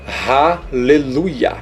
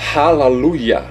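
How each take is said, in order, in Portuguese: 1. A segunda vogal soa como e. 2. A segunda vogal soa como a. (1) "por isso que fica Haleluia" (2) "ou no paleo-hebraico, Halaluia"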